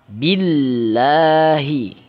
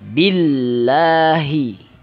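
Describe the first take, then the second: The two takes are said the same way.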